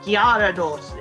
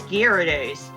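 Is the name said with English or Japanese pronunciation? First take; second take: Japanese; English. First: The name is said with Japanese pronunciation. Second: The name is said with English pronunciation. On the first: "In Japanese it's" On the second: "in English we pronounce it as"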